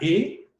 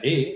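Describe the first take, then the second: First: The vowel is louder and higher in pitch. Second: The vowel is softer and lower in pitch. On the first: "la E tónica" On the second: "la E átona"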